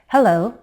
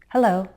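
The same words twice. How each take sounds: First: The pitch falls and then rises again. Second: The pitch falls simply at the end. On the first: It is a very polite greeting. "Very polite greetings may use a fall rise" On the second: It is a slightly formal, restrained greeting. "You'll usually hear simple falling intonation"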